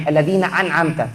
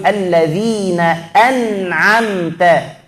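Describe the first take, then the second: First: Alladzina an'amta with the second ain dropped to hamzah; wrong ain as hamzah. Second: Slow Alladzina an'amta with a clear throat ain; correct ain. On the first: Teacher showing a wrong reading. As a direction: say an'amta with a plain glottal stop. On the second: Teacher modelling the correct reading, slow. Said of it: "Yang betul". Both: Shown as a demonstration.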